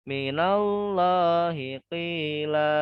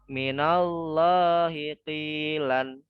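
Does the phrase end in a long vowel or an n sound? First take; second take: long vowel; n sound. First: The phrase ends with a long vowel. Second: The phrase ends with an n sound. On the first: The reader stops at this word. "karena mau berhenti nih" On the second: The reading continues past this word. "kalau aslinya itu dibaca kilan"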